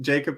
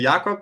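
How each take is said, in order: First: The name is pronounced with English sounds. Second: The name is pronounced with German sounds. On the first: "in English" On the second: "in German"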